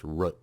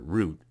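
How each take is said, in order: First: "root" with a short vowel like foot; father's root. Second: "root" with a long oo like boot. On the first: Retold or imitated. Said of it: "my father pronounces this root". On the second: Shown as a demonstration. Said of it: "but I pronounce it root".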